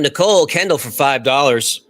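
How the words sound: It is said in a put-on radio-announcer voice.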